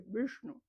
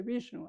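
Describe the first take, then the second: First: Vishnu with tongue drawn back, like "Vüshnu"; retroflex Sanskrit pronunciation. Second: Said in the usual way. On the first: Shown as a demonstration. Teacher correcting the everyday form, Vishnu said retroflex. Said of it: "es hacia atrás también". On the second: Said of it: "no se dice Vishnu".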